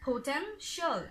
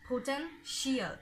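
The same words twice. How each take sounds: First: The ending is one short 'shul' syllable. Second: The ending is two syllables, like 'shee-al'. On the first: The speaker calls it right. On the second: The speaker calls it wrong.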